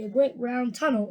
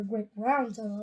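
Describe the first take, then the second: First: "great" stressed in "a great round tunnel". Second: "round" stressed in "a great round tunnel". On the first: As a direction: lean on the word "great". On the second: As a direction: lean on the word "round". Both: Shown as a demonstration. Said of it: "putting the emphasis on the round".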